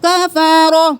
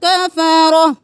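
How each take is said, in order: No difference in how they are said.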